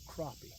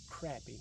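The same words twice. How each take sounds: First: The first vowel sounds like the 'o' in cot. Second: The first vowel sounds like the 'a' in cat. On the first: This is how people elsewhere say it. "not C R O P P Y" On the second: This is how people around here say it. "We say it the way it's spelled, C R A P P Y"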